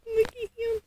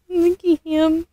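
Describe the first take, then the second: First: Higher, softer doting coo. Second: Said in the usual way. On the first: Real, not acted. Mom cooing as she holds the doll.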